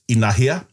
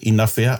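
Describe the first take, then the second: First: The middle consonant sounds like an h. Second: The middle consonant sounds like an f. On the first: This is the form most Māori speakers use. "the majority of Māoridom uses inahia" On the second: This is the Tainui dialect form. "that's a typical Tainui dialect"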